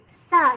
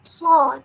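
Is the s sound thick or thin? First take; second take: thin; thick. First: The s sound is thin and light. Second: The s sound is thick and heavy.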